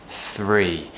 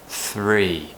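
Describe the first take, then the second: No difference in how they are said.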